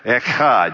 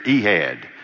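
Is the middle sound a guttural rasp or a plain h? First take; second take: guttural; plain h. First: The middle sound is a harsh guttural rasp. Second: The middle sound is a soft plain h. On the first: The speaker calls it right. "it sprays out. It comes from a guttural sound in the mouth" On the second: The speaker calls it wrong. "we don't want to do an Alabama translation here"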